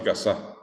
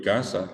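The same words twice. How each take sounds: First: "casa" said casÁ, stressed on the final A; stress on last syllable. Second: "casa" said CÁsa, stressed on the first A; stress on first syllable. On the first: Teacher shows a moved accent mark, "casa" stressed on the end. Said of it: "en la S A pongo la A". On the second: Teacher contrasts the usual word, "casa" stressed on the first syllable. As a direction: hit the CA of "casa". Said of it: "está en la A de K". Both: Shown as a demonstration.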